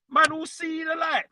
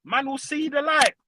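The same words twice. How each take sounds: First: Higher, half-shouted repeat; raised repeat. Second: Said in the usual way. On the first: Real, not acted. Half-shouted boast at Spurs fans about seeing the light. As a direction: belt it out the second time.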